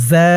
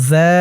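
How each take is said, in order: No difference in how they are said.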